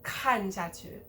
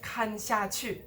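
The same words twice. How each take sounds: First: The syllables after 看 are unstressed. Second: The syllables after 看 are stressed. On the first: The speaker calls it right. "also de-stressed" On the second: The speaker calls it wrong. "instead of"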